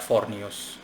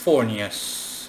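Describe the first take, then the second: First: The name is said flat, without marked stress. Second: The name has a marked stressed syllable.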